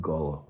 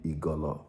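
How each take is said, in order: First: "Golo" without the leading I; "Golo" in two syllables, I left off; dropped initial I. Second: "Igolo" with its initial I; "Igolo" in three syllables, starting on I; full form of name. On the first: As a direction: say "Golo", starting straight on the G. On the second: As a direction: say "Igolo" keeping the I at the front. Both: Shown as a demonstration. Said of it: "They drop the I in front".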